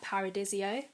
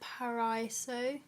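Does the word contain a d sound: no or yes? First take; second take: yes; no. First: The word is said with a d sound. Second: The word is said without a d sound.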